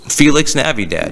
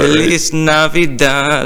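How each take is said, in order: First: The first word ends with a ks sound. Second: The first word ends with an s sound. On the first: The speaker calls it wrong. "am I saying it wrong?" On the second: The speaker calls it right. "There you go"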